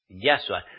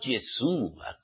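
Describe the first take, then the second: First: The first syllable is said as 'ya'. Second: The first syllable is said as 'ye'. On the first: The speaker calls it right. "y es Yahshua" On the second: The speaker calls it wrong. "no Yeshua, como muchos lo pronunciáis"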